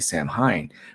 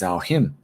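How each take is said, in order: First: Each letter is sounded out as it is spelled. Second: It is said the Irish way, not as spelled. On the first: The speaker calls it wrong. "which you would think would be Samhain, but it isn't" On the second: The speaker calls it right. "It's Samhain"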